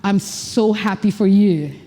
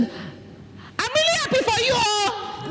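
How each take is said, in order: First: Lower, slow and grounded; calm, grounded happiness; different power. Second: Very high, soft and slow; strained, unnatural happiness; weird-sounding. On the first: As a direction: settle it low and slow. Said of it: "That's a different power". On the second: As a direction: squeak it out thin and drawn. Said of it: "That sounds weird". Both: Shown as a demonstration.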